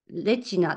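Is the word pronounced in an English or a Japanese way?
Japanese. It is said with Japanese-style syllables. "日本語であの発音するとそうなんですけど"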